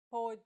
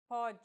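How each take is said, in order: First: Pôde with a closed O, PÔ-dji; closed O demo. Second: Pode with an open O, PÓ-dji; open O demo. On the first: Teacher shows closed-vowel pôde to learners. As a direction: say pode with a closed O. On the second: Teacher shows open-vowel Pode to learners. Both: Shown as a demonstration. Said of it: "this mark may or may not refer to the vowel sound".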